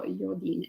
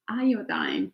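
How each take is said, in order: First: "iodine" said as YO-deen; unsure pronunciation. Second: "Iodine" said as EYE-oh-dine; corrected English pronunciation. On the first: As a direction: say "iodine" with a y start and an -een ending. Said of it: "how you pronounce that". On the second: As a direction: say "Iodine" carefully with a long i at both ends. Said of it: "how you pronounce that in English". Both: Real, not acted.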